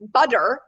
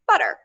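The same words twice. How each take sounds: First: The middle consonant is a clear d. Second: The middle consonant is a quick flap. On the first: The speaker calls it wrong. "Is it a D?" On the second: The speaker calls it right. "the last one is how most people pronounce it, and that's its own sound. It's the flap"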